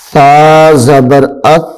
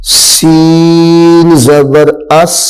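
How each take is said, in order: First: اس said without the hissing s; no whistle. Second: اس with a clear whistling sین; اس ending in a sharp whistling s; whistled s. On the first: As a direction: keep the whistle out of اس. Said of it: "اس میں سیٹی کی آواز ظاہر نہ ہو". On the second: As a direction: let the s in اس hiss out. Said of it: "اس میں سیٹی کی آواز جو ہے وہ نکالنی ہے". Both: Shown as a demonstration.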